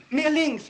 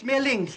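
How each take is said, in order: First: Pained call. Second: Pained shout. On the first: Directing the rub, in pain. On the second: Repeats, in pain. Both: Acted.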